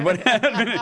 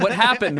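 First: Laughing mock astonishment, pitched up; high, laughing disbelief; mock surprise. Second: Said in the usual way. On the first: Real, not acted. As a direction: act amazed while laughing. Mock astonishment at good day.

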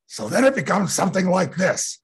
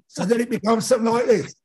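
First: High, loud orc voice with a rasp; raspy smiling orc. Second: High, loud orc rasp in a British accent; British-accented raspy orc. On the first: Actor building an orc voice layer by layer, raspy. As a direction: rasp it through a big smile. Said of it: "like, a raspiness". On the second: Actor adding the director's next layer, British-accented orc. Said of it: "give it a British accent". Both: Shown as a demonstration.

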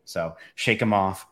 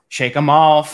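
First: Said in the usual way. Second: Loud and higher, pumping up. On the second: Real, not acted. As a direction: belt it out to shake nerves. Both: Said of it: "shake 'em off".

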